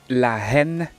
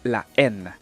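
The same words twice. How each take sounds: First: An h sound is breathed before the vowel. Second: The word starts directly on the vowel. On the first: The speaker calls it wrong. "ne dites plus la haine" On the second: The speaker calls it right. "mais dites la haine"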